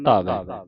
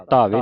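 First: ਧਾਵੈ ending in open "ai"; ਧਾਵੈ with the double-lavan vowel; correct reading. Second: ਧਾਵੇ ending in narrow "e"; ਧਾਵੇ with a single-lavan ending; wrong reading. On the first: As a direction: say ਧਾਵੈ as "dhaavai", lower. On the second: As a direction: say ਧਾਵੇ as "dhaave". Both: Shown as a demonstration. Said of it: "ਨਹੀਂ ਪੜ੍ਹਨਾ".

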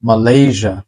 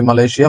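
First: মালয়েশিয়া said "ma-LAY-zha"; correct pronunciation. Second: মালয়েশিয়া said "ma-le-si-a"; local pronunciation. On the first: Teacher modelling for learners, মালয়েশিয়া as ma-lay-zha. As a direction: end মালয়েশিয়া in a buzzed zha. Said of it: "মালয়েশিয়া হচ্ছে না". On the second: Teacher quoting how we usually say it, মালয়েশিয়া as ma-le-si-a. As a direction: end মালয়েশিয়া in a separate si-a. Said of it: "আমরা বলি". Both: Shown as a demonstration.

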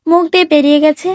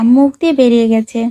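First: Mocking echo. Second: Mild, lower-toned excuse with a falling end; apologetic excuse. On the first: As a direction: throw the excuse back as an indignant question. Wife throws his excuse back. (ব্যঙ্গ করে টেনে বলা) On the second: Acted. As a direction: let it out as a sheepish excuse. Husband excuses a slip to wife. (হালকা কৈফিয়তের সুর)

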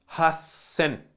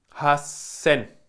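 The two takes are said the same way.

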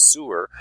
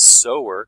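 First: "sewer" said with an oo sound, like the drain; "sewer" rhymes with "fewer". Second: "sower" said with an oh sound, like someone who sews; sower as in seamstress. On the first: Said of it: "It's where your toilets drain". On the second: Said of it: "'cause it says seamstress". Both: Shown as a demonstration.

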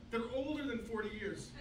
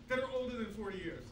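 Both takes have the same delivery.

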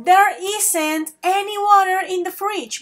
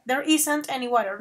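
First: Slow model sentence with isn't said clearly; teacher models the corrected line. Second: Isn't said a little firmer as the correction; stress on isn't. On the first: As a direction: model the fix for the class. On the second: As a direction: lean on isn't to show the fix. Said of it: "van a utilizar isn't". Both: Shown as a demonstration.

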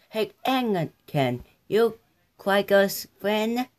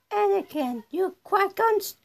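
First: Said in the usual way. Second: Put-on high small child voice; high character voice. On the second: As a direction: pipe it up high. Voicing a Star Wars character.

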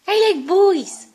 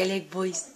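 First: High, loud, slow sing-song dog voice; loud high sing-song speaking for the dog; dog's voice. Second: Dog's voice. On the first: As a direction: ham up the dog declaring it. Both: Shown as a demonstration. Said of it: "You say".

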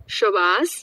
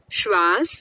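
First: "શ્વાસ" opened up into sho-vaas; split-cluster pronunciation. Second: "શ્વાસ" as one syllable, shvaas; written-form pronunciation. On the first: Teacher contrasting speech with spelling, "શ્વાસ" said as sho-vaas. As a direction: slip a short vowel between sh and v in "શ્વાસ". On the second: Teacher showing how it is written, "શ્વાસ" said as tight shvaas. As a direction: run sh straight into v in "શ્વાસ". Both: Shown as a demonstration. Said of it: "લખવાની રીત અને બોલવાની રીતમાં ફેર".

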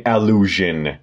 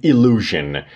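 First: Allusion said "a-LU-zhen", first vowel between A and E. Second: Illusion said "ee-LU-zhen", opening on a full EE; full EE first vowel. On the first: Teacher correcting learners' first vowel, careful allusion. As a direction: open allusion short of a full EE. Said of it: "ما بین ا و ای وایسید". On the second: Teacher showing the word not to say, full EE in illusion. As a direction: open illusion with a clear EE. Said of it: "البته کامل ای میگید". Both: Shown as a demonstration.

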